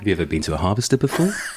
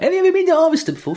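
First: It is said in a low, deep voice. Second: It is said in a higher voice.

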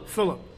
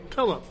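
First: The name begins with an F sound. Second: The name begins with a P sound. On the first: The speaker calls it right. "my real name" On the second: The speaker calls it wrong. "they would always say Pillip"

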